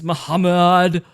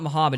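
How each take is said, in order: First: The name is said in a put-on, affected way. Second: The name is said in a plain everyday way. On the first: "he's even got that pretentious" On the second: "It's not Muhammad"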